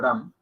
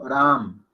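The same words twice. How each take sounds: First: The a is short and plain, Spanish style. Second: The a is accented and drawn out. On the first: The speaker calls it wrong. "No decimos Ram" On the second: The speaker calls it right. "la A va acentuada"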